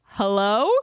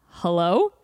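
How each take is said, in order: First: Loud, hesitant questioning hello; baffled answer. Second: Loud, lower questioning hello; lightly voiced caller checking who's there; puzzled caller. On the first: Retold or imitated. Two friends answering the elevator speaker, baffled hello. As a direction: imitate answering an unexpected voice. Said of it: "standing in the elevator just like". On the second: Dude calling through elevator speaker, questioning hello. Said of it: "a dude starts talking to us".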